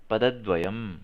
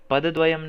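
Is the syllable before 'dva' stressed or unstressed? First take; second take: stressed; unstressed. First: The syllable before 'dva' gets extra stress. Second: The syllable before 'dva' gets no extra stress. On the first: The speaker calls it right. "द पे थोड़ा सा जोर दो" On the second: The speaker calls it wrong. "नहीं"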